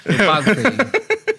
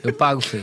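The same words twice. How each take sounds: First: Slow, stretched, higher eu pago feio; drawn-out offer. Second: Said in the usual way. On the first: Real, not acted. Friend offering to pay the podcast guys, slow drawn-out.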